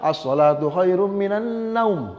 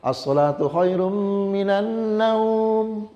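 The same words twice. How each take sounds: First: The vowel in the last word is cut short. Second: The vowel in the last word is drawn out. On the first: The speaker calls it wrong. "Cuma tidak boleh juga" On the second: The speaker calls it right. "dua harkat dia"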